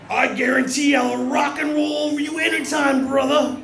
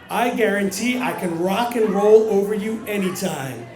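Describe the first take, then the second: First: It is said as a WWE villain impression. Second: It is said in his normal voice.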